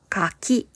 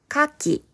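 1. 高いのは2つ目です。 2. 高いのは1つ目です。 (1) "二つ目のカキはフルーツです。" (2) "一つ目のカキは海に住んでいる貝です。"

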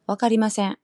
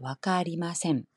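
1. 칸사이 억양 패턴을 쓰고 있어요. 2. 도쿄 표준 억양 패턴을 쓰고 있어요. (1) "칸사이 쪽은 わかりません" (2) "わかりません 표준어"

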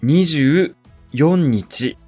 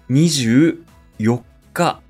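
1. 4は普通の数字の読み方だ。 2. 4は特別な日の読み方だ。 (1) "24 日ではありません。" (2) "24 日です。"

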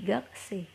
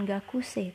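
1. U setelah k hampir tidak terdengar. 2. U setelah k terucap dengan jelas. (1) "u-nya tuh hampir tidak terdengar atau hampir tidak terucap" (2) "bukan gakusei"

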